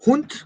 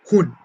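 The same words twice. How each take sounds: First: Hund ending in a short, sharp t after the u; Hund with final D. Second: Huhn with a long open u and no consonant at the end; Huhn without D. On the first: Teacher contrasting Hund with Huhn for a student, crisp final t. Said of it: "¿Sí notas la diferencia?". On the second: Teacher contrasting Huhn with Hund for a student, open vowel ending. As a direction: let Huhn fade out on the vowel with nothing after it. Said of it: "sin la D al final". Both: Shown as a demonstration.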